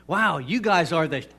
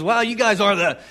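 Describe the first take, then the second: First: Said in the usual way. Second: Excited, higher and louder; retold burst of grateful excitement; excited quote. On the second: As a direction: blurt it out in thrilled amazement. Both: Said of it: "but he's excited".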